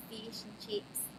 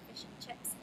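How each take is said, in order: First: "fish and chips" with tight, long Australian ee-vowels; Aussie accent on fish and chips. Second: Said in the usual way. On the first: Shown as a demonstration. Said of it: "in, in Aussie accent". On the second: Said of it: "when you say fish and chips".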